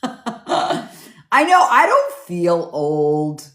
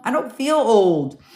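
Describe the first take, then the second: First: Laughing. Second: Said in the usual way. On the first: Real, not acted. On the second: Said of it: "You know".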